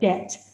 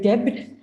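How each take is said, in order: First: The B sound is left out entirely. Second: The B sound is clearly pronounced. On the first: The speaker calls it right. "the B is silent" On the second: The speaker calls it wrong. "We don't say debit"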